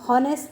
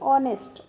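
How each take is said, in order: First: The word begins with an h sound. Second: The word begins with a vowel sound. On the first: The speaker calls it wrong. "हम हॉनेस्ट नहीं बोलते, ह से शुरुआत नहीं होती है इसकी।" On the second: The speaker calls it right. "अ से शुरुआत होती है।"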